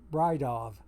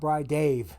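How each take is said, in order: First: The last syllable sounds like 'dov'. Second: The last syllable sounds like 'dave'. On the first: The speaker calls it right. "he pronounces the D A V Dov" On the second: The speaker calls it wrong. "I know it's not Bridave"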